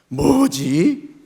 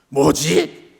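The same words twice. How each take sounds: First: It sounds discontented and complaining. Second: It sounds angry and irritated. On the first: The speaker is dissatisfied with something. "불만과 불평의 뭐지도 있습니다" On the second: The speaker is annoyed by something. "화가 난 뭐지도 있습니다"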